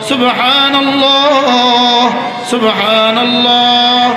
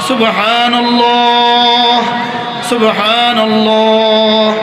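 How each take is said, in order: Both takes have the same delivery.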